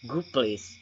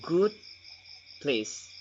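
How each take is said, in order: First: The d at the end of good becomes p. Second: The d at the end of good is pronounced.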